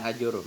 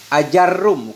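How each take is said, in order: First: The vowel after the j is a u. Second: The vowel after the j is an a. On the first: The speaker calls it wrong. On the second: The speaker calls it right. "dengan fathah jim yang mukhaffafah"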